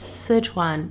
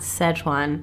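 First: It is pronounced the Chinese way. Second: It is pronounced the American way. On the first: The speaker calls it right. "know full well that it's Sichuan" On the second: The speaker calls it wrong. "not Sichuan. Clearly, I've been in America too long"

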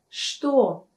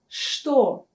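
First: The word begins with a 'sh' sound. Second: The word begins with a 'sh' sound.

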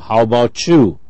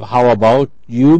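First: The phrase is reduced and run together. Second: The phrase is said in full.

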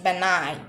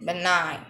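First: The G sound is silent. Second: The same.

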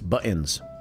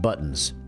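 First: The middle T sound is dropped. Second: The middle T sound is clearly pronounced. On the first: The speaker calls it right. "you don't say the T in the middle of words" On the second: The speaker calls it wrong. "So it's not buttons"

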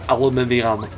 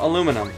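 First: It is said the British way, five syllables. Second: It is said the American way, four syllables.

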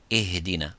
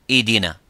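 First: The h is soft, breathy and slightly lengthened. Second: The h sound is so weak it disappears. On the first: The speaker calls it right. "We give it time and we give it air" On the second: The speaker calls it wrong. "you make it weaker, it becomes idina"

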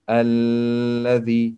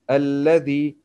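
First: The doubled consonant is held for two counts. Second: The doubled consonant is held briefly, as normal. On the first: The speaker calls it wrong. "we don't say Alladhi, no, it's wrong" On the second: The speaker calls it right. "we should pronounce Shadda here as normal"

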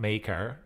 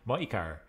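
First: The first syllable does not sound like 'my'. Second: The first syllable sounds like 'my'. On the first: The speaker calls it wrong. "not Maykar" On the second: The speaker calls it right. "so I'll make sure I pronounce it correctly going forward"

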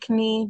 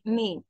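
First: The word begins with a K sound. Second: The word begins with an N sound. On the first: The speaker calls it wrong. "Don't say knee" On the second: The speaker calls it right. "We start from the N sound like knee"

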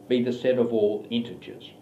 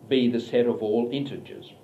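Both takes have the same delivery.

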